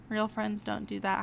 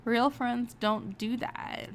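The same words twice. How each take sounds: First: Said in the usual way. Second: Slow, stressing real; trying it out. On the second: Shown as a demonstration. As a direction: test the line slowly, leaning on real. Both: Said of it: "weighing answer options aloud".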